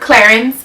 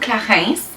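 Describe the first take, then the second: First: It is said with an English accent. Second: It is said with a French accent.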